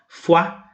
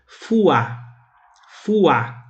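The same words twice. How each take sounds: First: Fuá said as a single quick syllable; one syllable. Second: Fuá drawn out as fu-á; stretched two syllables. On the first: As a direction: clip fuá into one beat. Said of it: "Em vez de fazer uma sílaba só". (fuá numa sílaba só, rápido) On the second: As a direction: split fuá into two beats. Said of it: "como se fossem duas sílabas". (fuá alongado em duas sílabas, como faz o brasileiro) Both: Shown as a demonstration.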